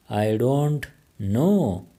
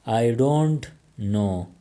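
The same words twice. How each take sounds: First: Each word drawn out slowly for learners; very slow, careful. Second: Said in the usual way. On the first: Shown as a demonstration. English teacher modelling the phrase for Pashto learners, very slow. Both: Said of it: "teacher repeats the phrase twice".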